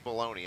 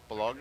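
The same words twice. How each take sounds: First: The word is said like 'baloney'. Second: The word is not said like 'baloney'. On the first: The speaker calls it wrong. "I don't think it's bologna" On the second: The speaker calls it right. "I think it's Bologna"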